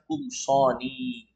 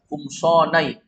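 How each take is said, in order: First: The word ends with a short 'ni' sound. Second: The word ends with a 'nai' sound. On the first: The speaker calls it right. "Maka dibaca kumsoni" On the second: The speaker calls it wrong. "nggak mungkin kita baca kumsonai"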